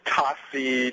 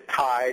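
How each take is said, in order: First: It is two syllables, ta and si. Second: It is one syllable starting with a plain t. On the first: "to Tasi to all sorts of things" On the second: "I get everything from Tsai to Thai"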